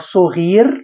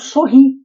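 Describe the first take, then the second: First: The word ends with a clear final r sound. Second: The word ends without a final r sound. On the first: It follows careful non-colloquial speech. "Se eu não utilizar o registro da fala" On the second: It follows everyday spoken speech. "tem exatamente o mesmo som do Piauí"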